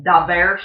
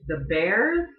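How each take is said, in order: First: "the Bears" as "da Bearss", D for TH; Chicago accent. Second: Said in the usual way. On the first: Shown as a demonstration. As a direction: say "the Bears" Chicago style, "da" and a hissed final S. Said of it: "which they call the Bears". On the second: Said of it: "their local football team is the Bears".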